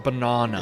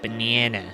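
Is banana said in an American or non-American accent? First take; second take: non-American; American. First: It is said in a non-American accent. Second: It is said in an American accent. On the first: This is how the other person says it. "He says banana" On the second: This is how Americans say it. "We say banana"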